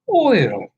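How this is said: The first syllable sounds like 'oy'. The speaker calls it right. "It's or. It's oil"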